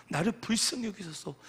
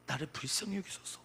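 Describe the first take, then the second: First: Repeated plea with more push; moderately raised appeal for mercy; modelled crying out. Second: Softer first plea for mercy; subdued demonstration of pleading; modelled prayer plea. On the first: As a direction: lift the plea toward a cry. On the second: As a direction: start the cry gently, held back. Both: Shown as a demonstration. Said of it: "하면서 우리는 소리쳐야 됩니다".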